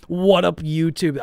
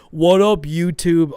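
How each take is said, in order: First: Loud, high hyped intro; old YouTube greeting. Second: Much louder, higher hyped greeting; mocking old intro. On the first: Shown as a demonstration. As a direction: belt the greeting like a hyped vlogger. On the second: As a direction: parody your own cringe YouTube intro. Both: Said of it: "I used to say that".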